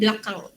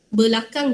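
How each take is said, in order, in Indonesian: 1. Vokal pertama dihilangkan. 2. Vokal pertama diucapkan penuh.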